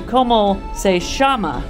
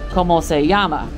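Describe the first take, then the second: First: The double L sounds like 'sh'. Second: The double L sounds like 'y'. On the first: This is the Buenos Aires pronunciation. "you would say" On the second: This is the usual Spanish pronunciation. "instead of"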